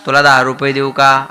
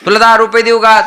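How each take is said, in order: First: Said in the usual way. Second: High-pitched voiced mother's offer; coaxing mother. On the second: Mother bribing her crying child, high coaxing voice. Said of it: "आई स्वतःहून म्हणते".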